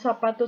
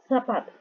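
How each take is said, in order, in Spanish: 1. La z se dice como una s normal. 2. La z es un siseo más largo y suave, parecido a la th. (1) "Z como nosotros, que decimos zapato" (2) "ellos dicen zapato. Lo dicen un poco más largo"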